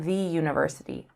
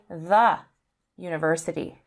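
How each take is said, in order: First: 'The' is said with a long 'thee' vowel. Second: 'The' is said with a short 'thuh' vowel. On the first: The speaker calls it wrong. "not the university" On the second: The speaker calls it right. "So we say the university"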